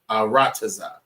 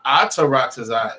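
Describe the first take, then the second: First: No extra syllable is added near the start. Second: An extra syllable is added near the start. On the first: The speaker calls it right. "It's just Arataza" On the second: The speaker calls it wrong. "You putting a little few more, a few more letters in there"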